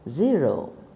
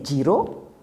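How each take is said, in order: First: The first sound is a clear buzzing z. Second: The first sound is not a clear z. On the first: The speaker calls it right. "You need to say zero. See how nice it sounds" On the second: The speaker calls it wrong. "that's wrong"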